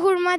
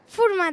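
First: The word begins with an h sound. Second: The word begins with an f sound. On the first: This is how people say it today. "biz şimdi hurma derik" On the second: This is how people used to say it. "eskiden furma derlerdi"

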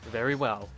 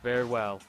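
First: It is said in a plain, non-emo voice. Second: It is said in an emo stereotype voice.

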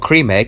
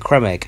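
First: The first word sounds like the English word cream. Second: The first word sounds like French crème, as in crème fraîche. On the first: This is how nearly everyone says it. The speaker calls it wrong. "it's not a cream egg" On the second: This follows the spelling and the official way. The speaker calls it right. "because it's spelt like you say creme fraiche"

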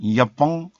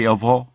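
First: The word ends with an added nasal 'ng' sound. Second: The word ends plainly on the vowel 'o'. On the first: The husband is coaxed into granting permission. The speaker calls it right. "보에다가 이응을 좀 깔아" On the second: The husband will not grant permission. The speaker calls it wrong. "이렇게 하면 안 된다니까"

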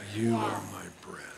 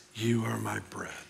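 The two takes are said the same way.

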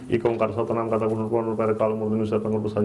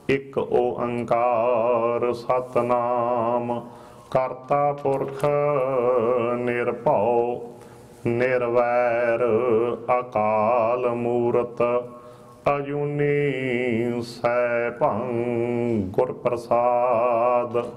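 First: The words are rushed together quickly. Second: Each word is said slowly and clearly.

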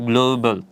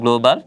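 First: The word is said the standard English way. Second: The word is said the common local way. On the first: The speaker calls it right. "এটা হবে গ্লোবাল" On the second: The speaker calls it wrong. "আমরা সাধারণত বলি গ্লোবাল, but আসলে এটা গ্লোবাল হবে না"

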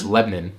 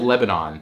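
First: The name is said the local Tennessee way. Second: The name is said the standard, careful way. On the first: "if you say Lebanon to a Tennessean, it's Lebanon" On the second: "spelled Lebanon"

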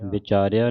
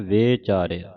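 First: The first vowel is a short i. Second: The first vowel is an e. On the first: The speaker calls it wrong. "ਵਿਚਾਰਿਆ ਨਹੀਂ ਕਹਿਣਾ" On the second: The speaker calls it right. "ਵੇਚਾਰਿਆ ਲਾਂ ਦੇ ਨਾਲ"

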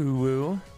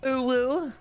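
First: It is said in a lower pitch. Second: It is said in a higher pitch.

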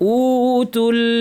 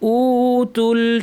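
First: The first vowel is stretched out long. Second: The first vowel is stretched out long.

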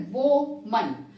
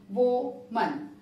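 No difference in how they are said.

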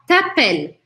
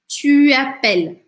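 First: The vowel of tu is dropped and merged. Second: The vowel of tu is kept and articulated. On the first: This is casual, informal speech. "aqui eu não poderia falar t'appelles, só numa linguagem oral e informal" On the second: This is the general, standard form. "de modo geral, eu vou falar tu appelles"

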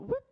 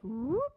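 First: It is said quickly and short. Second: It is said stretched out and slow.

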